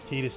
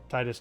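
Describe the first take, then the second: First: The first syllable is said like 'tee'. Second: The first syllable is said like 'tie'. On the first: The speaker calls it wrong. "Titus just sounds weird. / It sounds like teat" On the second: The speaker calls it right. "Titus just sounds better"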